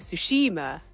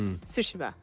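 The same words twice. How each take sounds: First: The middle syllable carries strong stress. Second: The middle syllable carries no strong stress. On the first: The speaker calls it wrong. "we were going Tsushima ... we put the emphasis on the I, on the E" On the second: The speaker calls it right. "But it's Tsushima"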